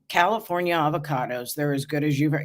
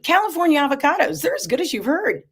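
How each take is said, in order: First: It is said in a flat, unexcited tone. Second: It is said in an excited, upbeat tone.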